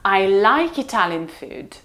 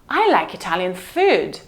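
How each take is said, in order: First: The stress falls on the word like. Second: The stress falls on the word food. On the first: The speaker does not hate it. "Why did you say that I hated it? I like it" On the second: It is the food, not other Italian things. "Not fashion, not furniture, but food"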